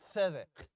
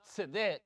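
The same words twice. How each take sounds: First: The stress is on the first syllable. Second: The stress is on the last syllable. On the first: The speaker calls it right. "the first one gets the emphasis" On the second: The speaker calls it wrong. "It's not tzedek"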